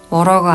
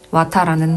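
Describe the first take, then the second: First: The middle t is a soft flap, ending 'rer'. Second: The t is clear and it ends in 'ta'. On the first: "미국식 영어 발음" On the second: "호주식 발음"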